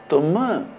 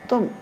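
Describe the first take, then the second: First: The final m is strongly emphasized. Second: The final m is barely emphasized at all. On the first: "hyperemphasis phoneme" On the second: "very hypoemphasis phoneme"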